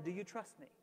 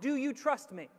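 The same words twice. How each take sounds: First: It is said in a put-on romantic character voice. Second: It is said in the speaker's ordinary voice.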